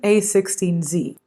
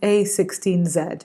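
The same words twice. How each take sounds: First: It is said in an American accent. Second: It is said in a British accent.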